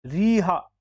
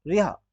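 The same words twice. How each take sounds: First: रिहा as "reeha"; wrong long ee. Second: रिहा as a quick "riha"; short i. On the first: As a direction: stretch the first vowel of रिहा. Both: Shown as a demonstration. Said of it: "फिर नहीं".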